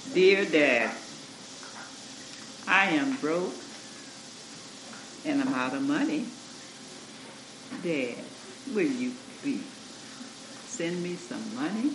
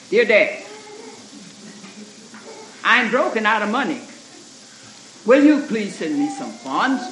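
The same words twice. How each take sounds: First: Soft, polite pleading reading, quieter; a much softer, humble reading of the letter; gentle tone. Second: Loud, curt reading of the letter; a louder, curt and rude reading; short tone. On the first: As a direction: read it kindly, asking nicely. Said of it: "same words, but in a different tone of voice". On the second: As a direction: read it sharp and short, demanding. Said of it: "he had kind of a short voice". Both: Retold or imitated.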